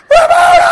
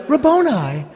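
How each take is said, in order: First: Very high, loud ecstatic shriek; cried out. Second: Mock Elizabethan accent, pitched up; restrained, affected Elizabethan delivery. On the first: Acted. Preacher acts Mary recognizing Jesus, full-force cry. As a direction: scream the name at the top of your voice. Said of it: "cried out in Aramaic". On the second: Preacher mocks how people think Mary said it, Elizabethan accent. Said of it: "in, like, an Elizabethan accent".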